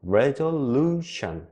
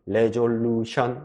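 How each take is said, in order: First: The syllable 'lu' is clearly stressed, rhythmically. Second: All syllables are even, with no strong beat. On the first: The speaker calls it right. "루가 세게 발음이 돼요" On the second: The speaker calls it wrong. "이게 아니라"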